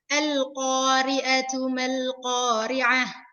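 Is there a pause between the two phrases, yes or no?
no. The two phrases are joined without a pause.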